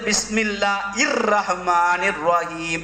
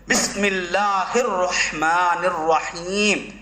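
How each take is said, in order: First: The h sound before -ir is dropped entirely. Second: The h sound before -ir is clearly pronounced. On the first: The speaker calls it wrong. "அந்த ஹீ வர மாட்டது, அதுக்கு பொருளே இல்லாம போயிடும்" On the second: The speaker calls it right. "சரியாக உச்சரித்து பழக வேண்டும்"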